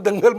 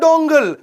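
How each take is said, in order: First: The first vowel is an open 'a' sound. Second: The first vowel is a rounded 'o' sound. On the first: The standard Hindi way of saying it. "वो दंगल movie की बात कर रहा था" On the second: A Bengali speaker's way of saying it. "Aamir Khan का डोंगल"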